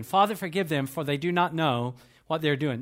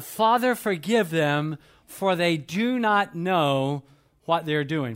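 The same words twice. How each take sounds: First: Said in the usual way. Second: Drawn-out prayerful words, slow; slow, solemn quoting of Jesus; slow solemn plea. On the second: Acted. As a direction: plead each word slowly. Jesus' words voiced slowly.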